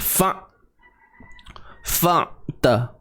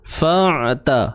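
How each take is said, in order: First: The throat sound is held back, cut off abruptly. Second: The throat sound flows smoothly, neither held nor loose. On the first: The speaker calls it wrong. "Kalau kita tahan, ... Fa' dia macam terkejut bunyi" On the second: The speaker calls it right. "suara yang tak terlalu terlepas, suara yang tidak terlalu tertahan"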